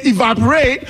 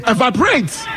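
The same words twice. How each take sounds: First: "evaporate" with an American i-VAP-o-rate opening; American pronunciation. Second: "evaporates" with an open eh-VAP start and a final s; Ghanaian pronunciation. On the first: The other side's version, American "evaporate". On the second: Her own Ghanaian version of "evaporates". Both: Shown as a demonstration. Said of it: "We pronounce differently".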